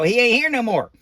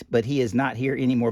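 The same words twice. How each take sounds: First: Lightly voiced folksy Billy Bob; casual country grammar, a touch higher; the hillbilly version of the line; Billy Bob drawl. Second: Said in the usual way. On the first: Shown as a demonstration. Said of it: "I'm Billy Bob. I go". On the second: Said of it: "It doesn't say".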